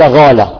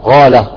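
Both takes have the same delivery.

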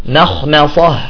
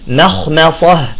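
No difference in how they are said.

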